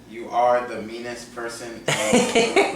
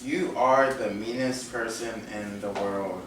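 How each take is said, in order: First: It is said with strong passion. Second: It is said with less passion.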